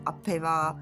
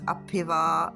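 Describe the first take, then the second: First: The word begins with an 'ap' sound. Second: The same.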